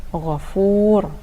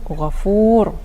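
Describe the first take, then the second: The two takes are said the same way.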